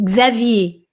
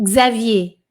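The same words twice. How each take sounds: Both takes have the same delivery.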